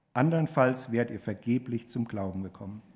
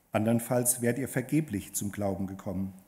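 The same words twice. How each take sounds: No difference in how they are said.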